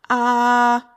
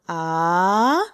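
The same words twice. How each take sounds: First: The pitch stays high and level. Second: The pitch rises from middle to high. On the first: "the first tone is going to be a straight tone" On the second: "the second tone, it's actually rising"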